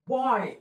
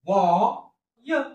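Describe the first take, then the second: First: Said in the usual way. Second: "बॉ, य" with a held बॉ, then separate य; phonics-style बॉ... य; sounded out. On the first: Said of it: "संपला शब्द". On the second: Shown as a demonstration. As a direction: draw out बॉ, pause, add य. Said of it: "एकत्रित काय झाला".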